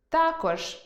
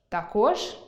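First: Також stressed on а, та́кож, higher; stress on the first syllable. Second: Також stressed on о, тако́ж, rising; stress on the last syllable. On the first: Teacher demonstrating та́кож. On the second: Teacher giving the variant тако́ж. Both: Shown as a demonstration. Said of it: "Наприклад".

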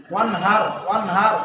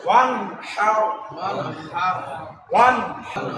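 First: ওয়ান হার with light h from bottom of throat; ordinary h. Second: ওয়ান হার with h squeezed from mid-throat; pressed throaty h. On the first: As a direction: say ওয়ান হার with a plain breath h. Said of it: "সাধারণ হা যেটা". (ওয়ান হার সাধারণ হা দিয়ে) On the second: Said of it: "কণ্ঠনালীকে চাপ". (ওয়ান হার কণ্ঠনালী চেপে উচ্চারণ) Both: Shown as a demonstration.

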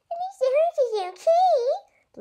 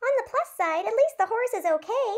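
First: Much higher, slow sour mocking echo; mother grumbling back at daughter, cranky; cranky mimicking. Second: Higher, bright upbeat line; cheery optimism. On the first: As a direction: echo her words grumpily. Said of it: "limped Mama, cranky as ever". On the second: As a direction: look on the bright side. Leno cheerfully looking on bright side. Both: A narrator's reading.

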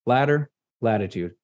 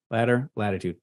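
First: Pair "Ladder" and "latitude" so they rhyme; memory trick. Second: "ladder, latitude" repeated softer, echoing the first; memory trick repeated, softer. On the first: Teacher drilling students on the ladder trick, rhythmic. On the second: Teacher repeating the ladder trick, softer echo. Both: Shown as a demonstration. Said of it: "latitude is like going up and down a ladder".

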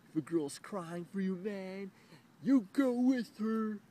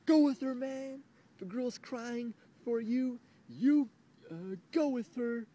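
First: High, loud mock lecturing stranger; hammed-up know-it-all voice; mocking bystander. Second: Higher, louder sarcastic caricature; mock with sarcasm, loud and high; sarcastic mocking bystander. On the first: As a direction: caricature the guy's advice. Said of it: "he says". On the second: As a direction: exaggerate the stranger even more. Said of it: "I love you double standards".

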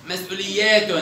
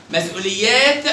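First: مسؤوليات ending in -tun; damma tanween. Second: مسؤوليات ending on a released t; sukun ending. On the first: Teacher tests the ending, مسؤوليات with -tun. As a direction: add -un after the t of مسؤوليات. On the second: Teacher tests the ending, مسؤوليات with bare t. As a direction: stop مسؤوليات on t without a vowel. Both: Shown as a demonstration. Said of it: "هنا ديت تاء وتاء".

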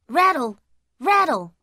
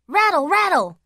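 First: Said in the usual way. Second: Higher, punchy rattle, rattle!; rattling sound effect. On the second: A narrator's reading. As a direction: make the blinds clatter. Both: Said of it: "went the blinds".

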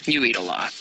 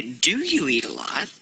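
First: "you eat a lot" said low and falling; low, settled "you eat a lot"; falling statement intonation. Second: "Do you eat a lot" lifting on "lot"; yes-no question rise at the end; rising question intonation. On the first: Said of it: "trailed off there, and that means". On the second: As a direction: ask it, pitch climbing on "lot". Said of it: "if I wanted to change this to a question". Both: Shown as a demonstration.

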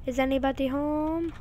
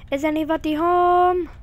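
First: Said in the usual way. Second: Louder, higher call. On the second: Pretend. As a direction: call out into the house. Calling into empty house.

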